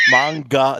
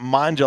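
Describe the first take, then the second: First: The middle consonant is a hard G sound. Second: The middle consonant is a soft J sound. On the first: The speaker calls it right. "Manga, the hard G" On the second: The speaker calls it wrong. "not manja, like pasta pizza"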